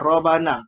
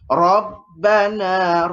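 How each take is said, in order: First: The b sound is short, not held. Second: The b sound is pressed and held longer. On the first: The speaker calls it wrong. "Kalau kita tak tekan, kita baca Robana" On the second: The speaker calls it right. "Kita kena tekan sikit ataupun tahan sikit"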